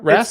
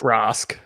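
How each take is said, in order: First: The name is said with an American vowel. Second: The name is said with an Australian vowel. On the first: "seems American" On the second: "I'm an Aussie, so for me it's Rask"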